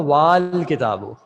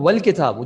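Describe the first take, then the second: First: The vowel after the w is drawn out long. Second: The vowel after the w is kept short. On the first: The initial alif is pronounced as a full sound. The speaker calls it wrong. "इसको खींचना पड़ता" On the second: The initial alif is silent, as if absent. The speaker calls it right. "मैं इसको प्रोनाउंस ही नहीं कर रहा"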